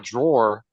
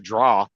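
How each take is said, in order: First: The word is said as 'drawer'. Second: The word is said as 'draw'. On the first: "instead of saying a drawer" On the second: "they say draw"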